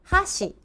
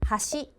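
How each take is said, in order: First: The pitch falls across the word. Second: The pitch rises across the word. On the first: It means chopsticks. "the tone that goes down" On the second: It means bridge. "that means bridge"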